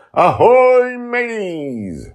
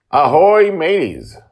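First: Very high, loud pirate hail; Justin's booming pirate greeting on deck; pirate shout. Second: High, loud pirate hail across the deck; hammed-up pirate call to the listeners; pirate greeting. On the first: Acted. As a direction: holler ahoy across the deck. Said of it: "and immediately shouts". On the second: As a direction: sing out ahoy like a jolly pirate captain.

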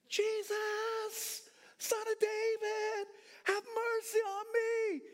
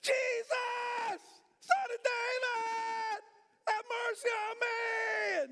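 First: High, drawn-out shout; crying out. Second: Very high, stretched-out scream; louder crying out. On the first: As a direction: call desperately to someone passing in a crowd. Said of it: "he just continued to cry". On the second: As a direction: keep screaming for mercy, refusing to be hushed. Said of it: "He got louder". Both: Acted.

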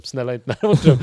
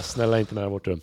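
First: Louder, urgent begging; louder desperate plea. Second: Said in the usual way. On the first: Retold or imitated. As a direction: plead harder, almost crying out. Begging escalates.

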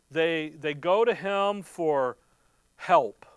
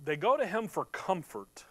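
First: "They, they go to him for" slow, then "help." punched loud and falling; slow build, then hit "help." hard; stress on help. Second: Said in the usual way. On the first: Real, not acted. Preacher drives home where to get help, slow then stress on help. Repeats phrase, emphasises help.

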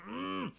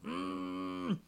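First: Muffled high hum, mouth closed; strangled closed-mouth mock scream; underwater scream. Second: Even higher muffled squeal, lips shut; closed-mouth mock scream, pitched up high; underwater scream. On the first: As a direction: squeal through shut lips like underwater. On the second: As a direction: push the trapped scream higher still. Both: Shown as a demonstration. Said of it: "that's what it sounds like".

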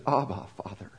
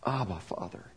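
First: Soft, low and hushed, an intimate prayer; tender, hushed plea. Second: Soft, low and hushed, with more feeling than before; tender, hushed plea. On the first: Preacher voicing Jesus praying in the garden, soft and hushed. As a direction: breathe it like a dying man's prayer. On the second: Preacher showing the emotion of Jesus facing death, hushed. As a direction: whisper it like a son facing death. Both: Shown as a demonstration. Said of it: "Try to capture the emotion".

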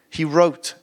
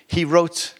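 No difference in how they are said.

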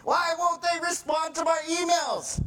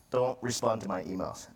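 First: High-pitched, exasperated mock shout; frustrated outburst. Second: Said in the usual way. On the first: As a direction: wail the complaint in hammed-up frustration. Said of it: "gets so frustrating". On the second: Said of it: "I'm just joking".

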